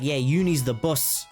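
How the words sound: It is said in Uni's very British accent.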